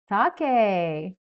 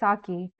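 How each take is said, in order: First: The word is said in a non-Americanized way. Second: The word is said in an Americanized way. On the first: "Is that how you pronounce it?" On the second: "maybe that's just the like Americanized version"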